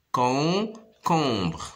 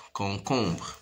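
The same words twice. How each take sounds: First: "Concombre" drawn out with a break between syllables; stretched, segmented "Concombre". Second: Said in the usual way. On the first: Shown as a demonstration. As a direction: sound out "Concombre" slowly. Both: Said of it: "se compose de trois syllabes".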